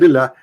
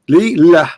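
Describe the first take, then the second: First: The two syllables are said quickly and joined. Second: The two syllables are said slowly and apart.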